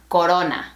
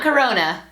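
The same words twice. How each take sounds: First: Corona with rounder o and tapped r, ko-RO-na; Spanish Corona. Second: Corona with English r, kuh-ROH-nuh; English-style Corona; anglicized Corona. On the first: Teacher modelling the correct Spanish Corona. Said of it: "Close your mouth a little bit more". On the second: Teacher showing the wrong English way to say Corona. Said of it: "Not Corona". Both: Shown as a demonstration.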